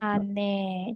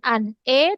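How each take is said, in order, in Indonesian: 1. Konsonan itu langsung menyambung ke vokal berikutnya. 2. Konsonan itu terpisah dari vokal berikutnya. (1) "tapi jadinya" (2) "Ini juga bukan an e"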